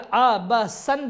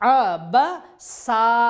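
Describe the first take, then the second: First: The word ends with an 'an' sound. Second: The word ends with a long 'aa' sound. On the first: The reading continues without a stop. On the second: The reader stops on this word.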